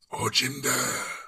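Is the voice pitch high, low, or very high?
low. It is said at a lower pitch.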